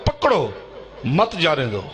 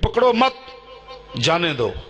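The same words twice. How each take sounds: First: The pause falls after the word 'pakro'. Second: The pause falls after the word 'mat'. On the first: Arrest him, do not let him go. "Police نے اس کو پڑھا" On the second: Do not arrest him, let him go. "ایک پرچی بنا کے دے دی"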